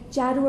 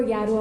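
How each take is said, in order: First: "Jarrow" said with an English J, as in "jar". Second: "Yarrow" said with a Y, as in "yes"; Y sound. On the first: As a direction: start "Jarrow" with a J like "jam". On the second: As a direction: start "Yarrow" with a Y like "yard". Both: Shown as a demonstration. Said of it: "I'm not quite sure how to pronounce it".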